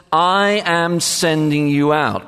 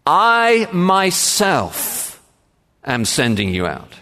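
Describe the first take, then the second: First: Said in the usual way. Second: Emphatic "I myself", slow and weighty; stress on I MYSELF. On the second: Shown as a demonstration. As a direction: lean hard on "I myself". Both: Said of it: "We might put it like this".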